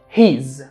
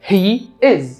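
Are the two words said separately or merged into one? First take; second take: merged; separate. First: Merged into one short syllable, he's. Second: Two separate words, he and is.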